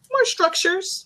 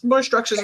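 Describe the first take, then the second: First: More structures, rising high on more; rising emphasis. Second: More structures, falling firmly on more; falling emphasis. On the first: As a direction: lift the word more up high, questioning. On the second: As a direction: land the word more down, settled. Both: Shown as a demonstration.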